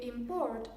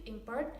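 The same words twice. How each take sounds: First: "import" as a verb, stressed on PORT; stress on second syllable. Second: "import" as a noun, stressed on IM; stress on first syllable. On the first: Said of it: "the stress is on the second syllable". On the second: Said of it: "the stress is on the first syllable". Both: Shown as a demonstration.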